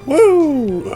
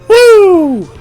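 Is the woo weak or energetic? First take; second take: weak; energetic. First: The woo is weak and half-hearted. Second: The woo is more energetic and fuller.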